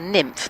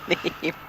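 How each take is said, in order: First: The name is said like the word nymph. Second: The name is said as a single syllable, neem. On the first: The speaker calls it wrong. "I want to call her Nymph, but I can't call her Nymph" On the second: The speaker calls it right. "It is Neem. Irish, that's the pronunciation"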